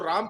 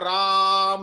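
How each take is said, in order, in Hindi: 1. स्वर की लंबाई सामान्य है। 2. स्वर बहुत ज़्यादा खिंचा हुआ है। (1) "राम की जगह" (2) "राम ऐसे बोलना है"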